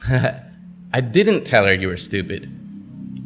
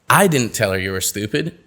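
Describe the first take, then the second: First: The word 'didn't' carries the main stress. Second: The word 'I' carries the main stress. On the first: The speaker denies having done it. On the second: Someone else said it.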